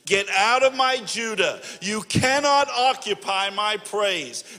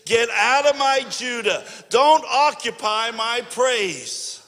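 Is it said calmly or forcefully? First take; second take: calmly; forcefully. First: It is said calmly, without strong conviction. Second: It is said forcefully, with strong conviction.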